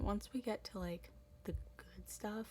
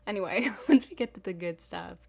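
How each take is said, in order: First: Said in the usual way. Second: Louder, laughing, perked-up restart; enthusiastic. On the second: Shown as a demonstration. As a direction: burst back in with energy. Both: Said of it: "I'll be a lot more enthusiastic".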